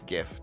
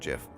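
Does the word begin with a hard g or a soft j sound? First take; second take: hard g; soft j. First: The word begins with a hard g sound. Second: The word begins with a soft j sound. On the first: The speaker calls it right. "So it's GIF" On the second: The speaker calls it wrong. "not GIF"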